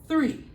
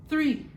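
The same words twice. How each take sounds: Both takes have the same delivery.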